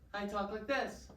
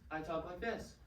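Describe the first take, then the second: First: It is said in a higher voice. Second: It is said in a lower voice.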